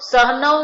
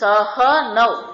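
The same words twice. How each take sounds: First: The h is clipped without its vowel. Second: The h is fully sounded with its vowel. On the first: The speaker calls it wrong. "હ ખોડો નથી બોલવાનો" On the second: The speaker calls it right. "હ આખો"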